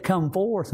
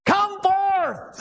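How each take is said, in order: First: Said in the usual way. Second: High, ringing shouted command; crying out. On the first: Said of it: "if he had said". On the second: Acted. Jesus orders Lazarus out of the tomb, shouted. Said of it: "he cried out".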